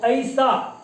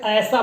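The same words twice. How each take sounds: First: ऐसा slowly as 'a-i-sa', both vowels heard; corrected diphthong. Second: ऐसा with one open 'ae' vowel; common mispronunciation. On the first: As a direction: stretch ऐसा so 'a' glides into 'i'. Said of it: "जबकि क्या है ये ऐ है". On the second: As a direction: say ऐसा as 'aesa', with no glide to 'i'. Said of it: "बोल देते हैं, जबकि ऐसा नहीं है". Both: Shown as a demonstration.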